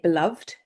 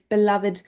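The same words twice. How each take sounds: First: The ending is a plain d sound. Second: The ending is an extra id syllable. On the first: "we should say beloved, um, which we can say" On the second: "we would actually pronounce it vid, id"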